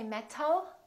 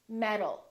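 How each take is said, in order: First: The t is a clear, crisp t sound. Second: The t is a quick d-like sound. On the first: The speaker calls it wrong. "We don't say" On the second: The speaker calls it right. "we say"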